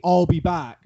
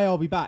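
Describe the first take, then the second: First: It is said big and dramatic. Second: It is said casually, low energy.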